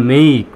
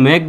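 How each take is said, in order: First: মেইক with a drawn-out "ei" glide; long vowel. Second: মেক with a short plain "e", no glide; short-vowel mispronunciation. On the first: Teacher gives learners the correct form, long-vowel মেইক. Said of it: "তাই সঠিক উচ্চারণ হবে". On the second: Teacher warns against a wrong form, short-vowel মেক. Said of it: "সেটা আসলে সঠিক উচ্চারণ নয়". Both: Shown as a demonstration.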